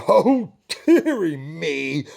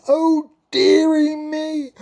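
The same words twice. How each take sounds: First: Slow, loud sighing king; mild sigh. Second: Very high, loud, slow whine; king whining to the queen. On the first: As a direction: sigh it out gloomily. King sighs first time. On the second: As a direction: whine like a spoilt child. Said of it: "The king whined". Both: Acted.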